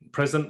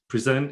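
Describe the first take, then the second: First: The stress is on the first syllable. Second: The stress is on the second syllable. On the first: It means the current moment. "present is now" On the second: It means to display something. "Present is to sort of um, display the thing"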